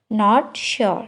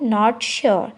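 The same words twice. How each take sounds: The two takes are said the same way.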